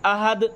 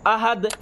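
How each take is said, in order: No difference in how they are said.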